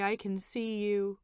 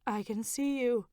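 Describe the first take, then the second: First: "I can see you" slowed, weight on "I"; slow and wondering. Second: "see" lifted high and stressed; amazed stress on "see". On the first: Wife repeating to her husband, slow and wondering. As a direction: let each word land slowly in wonder. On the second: Wife telling her husband, stress on "see". Candy realizing her sight returned. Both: A narrator's reading.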